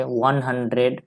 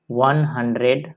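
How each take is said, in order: First: Slow, spaced out वन hundred; teacher reading वन hundred slowly. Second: Said in the usual way. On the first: Shown as a demonstration. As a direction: read वन hundred slowly for the class. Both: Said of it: "तो इसको कैसे पढ़ेंगे".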